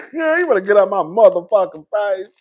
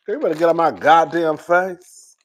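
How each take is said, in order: First: Said in the usual way. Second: Dramatic slow warning. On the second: Real, not acted. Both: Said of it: "sometimes I'm dramatic".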